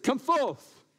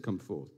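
First: Higher and louder call; booming summons; loud command. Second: Low and softer come forth; understated low command; quiet command. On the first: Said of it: "He said". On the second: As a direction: say it lower, almost to yourself. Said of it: "good he said". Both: Acted.

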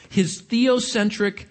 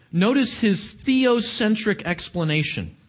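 First: Slow, drawn-out "theocentric"; stress on theocentric. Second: Said in the usual way. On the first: Shown as a demonstration. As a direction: lean into "theocentric" word by word.

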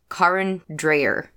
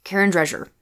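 First: Karen Dreyer, said slowly: DRY-er; correct pronunciation. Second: Karen Drescher, with "Drescher" said as DRESH-er; wrong pronunciation. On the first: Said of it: "I keep mispronouncing a singer's name". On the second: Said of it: "I have said it incorrectly". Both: Shown as a demonstration.

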